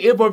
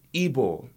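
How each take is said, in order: First: Igbo said the British way, the g barely sounded, I-boh; plain English Igbo, no Nigerian accent; British pronunciation. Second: Nigerian accent. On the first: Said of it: "I think about it saying it like Igbo and saying". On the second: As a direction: say Igbo the Nigerian way, drawn out. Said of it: "Oh, that is really Nigerian accent". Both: Shown as a demonstration.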